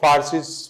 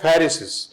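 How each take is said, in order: First: The first syllable sounds like 'far'. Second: The first syllable sounds like 'fer'. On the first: The speaker calls it wrong. "इसका उच्चारण ही सीधा आपको फारसीस मिलेगा, लेकिन हम इसका उच्चारण फारसीस नहीं कर सकते हैं" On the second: The speaker calls it right. "यह है फेरिसिस"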